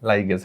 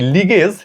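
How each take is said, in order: First: The first vowel sounds like 'eye'. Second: The first vowel sounds like 'ee'. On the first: "লাইগেজ উচ্চারণ আমাদের বই দেওয়া আছে" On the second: "লাইগেজেরই আরেকটা উচ্চারণ"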